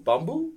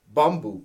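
First: "Bumbu?" with a rising end; tentative "Bumbu?", tune lifting into a question; unsure pronunciation. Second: "Bumbu" stated with a falling end; trying a pronunciation. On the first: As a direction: ask "Bumbu?" as if checking how it's said. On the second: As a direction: say "Bumbu" as a plain attempt, tune going down. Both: Shown as a demonstration. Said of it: "Again, sorry".

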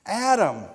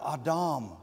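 First: Said in the usual way. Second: "Adam" as AH-dahm, both vowels open ah; Hebrew pronunciation. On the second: Shown as a demonstration. Giving congregation the Hebrew "Adam" with open ah vowels. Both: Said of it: "or in Hebrew".

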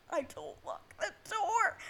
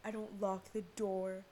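First: Slow, high-pitched squawk of disbelief; incredulous, rising to a loud shriek; exasperated high yell. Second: Said in the usual way. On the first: Real, not acted. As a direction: yell it slowly, voice jumping way up. Repeats it in loud dismay.

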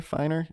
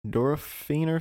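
First: "finer" with a long i, like "fine"; alternative pronunciation. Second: "Durofiner" with the third syllable like "fee"; tentative pronunciation. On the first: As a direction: try "finer" as FYE-ner, tentatively. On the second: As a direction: say "Durofiner" as duro-FEE-ner, unsure. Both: Real, not acted. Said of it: "something like that".

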